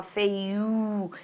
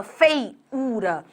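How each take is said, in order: First: "feiu" said softer and slower, the final syllable swallowed; natural spoken form. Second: "feiura" with all three syllables fully sounded; spelled-out pronunciation. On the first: Teacher showing the real everyday pronunciation, softly. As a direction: say "feiu" as people really speak it. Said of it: "você fala feiu". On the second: Teacher showing the wrong full pronunciation of the word. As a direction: say "feiura" as written, fei-u-ra. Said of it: "você não fala feiura". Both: Shown as a demonstration.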